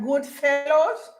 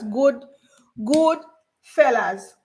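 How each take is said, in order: First: The last word ends in an 'oh' vowel. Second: The last word ends in an 'uh' vowel. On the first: The speaker calls it wrong. "like good fellows, but they don't say fellows" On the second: The speaker calls it right. "They said fellas"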